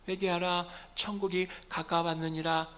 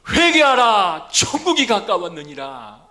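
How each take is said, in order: First: It is said weakly and quietly. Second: It is shouted loudly and forcefully.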